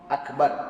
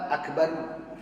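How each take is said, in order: First: The word stops sharply on the final r. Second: The final r is followed by a short u. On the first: "Waqaf akbar" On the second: "Kalau wasal akbaru"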